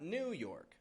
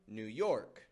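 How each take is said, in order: First: The stress falls on New. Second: The stress falls on York. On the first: The speaker calls it wrong. "It's not New York" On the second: The speaker calls it right. "we stress the York"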